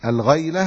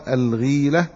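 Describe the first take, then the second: First: الغيلة said "al-ghayla", ay after gh; الغيلة with fatha, as al-ghayla; fatha on the ghayn. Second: الغيلة said "al-gheela", long ee after gh; الغيلة with kasra, as al-ghīla; kasra on the ghayn. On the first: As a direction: give الغيلة an ay diphthong. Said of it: "بفتح الغين". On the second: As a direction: give الغيلة a clear ee vowel. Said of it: "وأما الغيلة بالكسر". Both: Shown as a demonstration.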